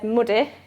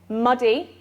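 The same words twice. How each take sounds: First: It is said in a West Yorkshire accent. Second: It is said in a Southern British accent. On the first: "The West Yorkshire English speaker said muddy with that uh vowel" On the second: "the S S B E speakers um, produce it with that uh sound. They say muddy"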